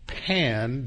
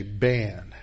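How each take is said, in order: First: "Pan" with a clear English P; plain P. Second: "Ban" with a B in place of the P, slow; Arabic B for P. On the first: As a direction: say "Pan" with a crisp P sound. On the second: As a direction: swap the P for a B as an Arabic speaker would: "Ban". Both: Shown as a demonstration. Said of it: "Arabs can't pronounce the letter P".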